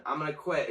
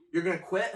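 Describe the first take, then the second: First: QUIT falling, as a settled answer; retold matter-of-fact reply, falling on "quit"; decided statement. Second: QUIT lifted as a question; retold checking question, rising on "quit". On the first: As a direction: state it with "quit" dropping at the end. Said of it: "I went". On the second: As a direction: ask it with "quit" rising at the end. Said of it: "And he goes".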